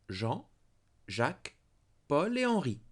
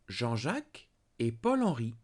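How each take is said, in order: First: Each of the four names is set apart. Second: Names join in two pairs without inner pauses. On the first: Four different men are named. "Quatre hommes. Four men" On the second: Two different men are named. "Two men"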